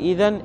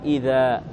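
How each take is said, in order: First: The word ends with an n sound. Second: The word ends with a long a vowel. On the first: "فتقول في إذن" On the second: "أبدلت نونها في الوقف ألفا"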